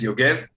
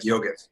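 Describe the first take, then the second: First: The name is pronounced the Hebrew way. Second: The name is pronounced the American way. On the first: "the Hebrew pronunciation is" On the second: "the Americans just always call me like"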